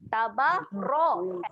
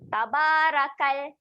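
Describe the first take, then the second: First: The r is thick and heavy. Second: The r is thin and light. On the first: The speaker calls it right. "Bunyi yang betul dia adalah tabarokal" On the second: The speaker calls it wrong. "bunyi tabarakal salah"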